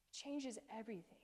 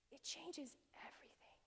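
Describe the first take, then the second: First: Said in the usual way. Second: Hushed, reverent whisper; soft awestruck whisper; awed whisper. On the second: Real, not acted. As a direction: breathe it out like a revelation. Awed emphasis, repeated line.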